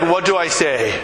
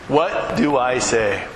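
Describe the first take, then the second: First: Said in the usual way. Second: Slow, deliberate question; slow repeat. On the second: Acted. Preacher repeating a believer's worry, slow and deliberate. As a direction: draw the question out word by word.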